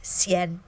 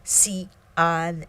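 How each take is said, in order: First: "Xian" run together as a single syllable; one syllable Xian. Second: "Xi An" said as two distinct syllables with a break; Xi'an with a gap between syllables. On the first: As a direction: glide "Xian" into one beat. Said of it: "a single syllable that would be pronounced Xian". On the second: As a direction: split "Xi" and "An" clearly. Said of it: "to show that they are two separate syllables". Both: Shown as a demonstration.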